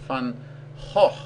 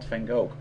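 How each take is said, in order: First: The name is said with Dutch sounds. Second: The name is said with English sounds. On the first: The speaker calls it right. "Try to pronounce it Van Gogh" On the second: The speaker calls it wrong. "not Van Gogh"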